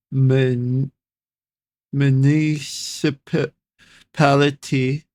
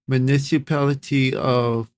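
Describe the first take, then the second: First: MUNICIPALITY drawn out slowly, in halting pieces; sounding out. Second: Said in the usual way. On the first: Real, not acted. Reader stumbling on a hard word, slowly sounding out municipality. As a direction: feel your way slowly through "municipality".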